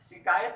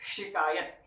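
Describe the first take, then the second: First: It starts with a sibilant that is not palatal. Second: It starts with a palatal 'sh' sound. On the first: The speaker calls it wrong. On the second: The speaker calls it right.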